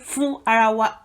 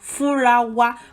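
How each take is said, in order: First: Each word is said separately and fully. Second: The words run together as one shortened word. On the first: This is the full form, picking each word. "You could say it like each word" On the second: This is the everyday shortened way of speaking. "Three words combined form Furawa"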